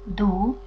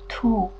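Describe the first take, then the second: First: It is said in Eastern Armenian pronunciation. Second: It is said in Western Armenian pronunciation.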